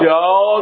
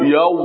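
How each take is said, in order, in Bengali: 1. সিলেবলটি একটি খোলা 'o' ধ্বনিতে শেষ হয়। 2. সিলেবলটি একটি গোলাকৃতি 'oo' ধ্বনিতে শেষ হয়। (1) "ইয়াও ইয়াও যদি কন তাহলে ভুল" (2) "ঠোঁট গোল করতে হবে"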